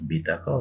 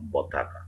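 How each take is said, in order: First: The first vowel is a clear 'i' sound. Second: The first vowel is an 'a' sound. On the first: This is the general name for any card. "সকল কার্ডকে এক নামে বলা হয় বিতাকা" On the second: This is the local colloquial form. "খুব লোকাল ভাষায়, আঞ্চলিক ভাষায় বলা হয়"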